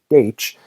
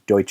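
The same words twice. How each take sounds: First: The name is said with a Russian pronunciation. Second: The name is said without the Russian pronunciation. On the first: "in Russian it would be more properly Deutsch" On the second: "I'm just going to use Deutsch again"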